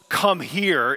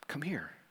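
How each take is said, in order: First: It is said loudly and commandingly. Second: It is said softly and tearfully.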